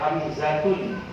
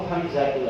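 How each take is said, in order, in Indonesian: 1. Nama ini diakhiri bunyi n. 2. Nama ini diakhiri vokal biasa. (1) "Jangan dibaca Hamzatun" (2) "cukup Hamzatul aja"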